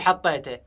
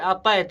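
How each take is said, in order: First: The word starts with an h sound. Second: The word starts with an ayn sound. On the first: This is the normal pronunciation. "ما يقول حطيته" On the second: This is how someone who cannot say ح pronounces it. "هل يقول عطيته"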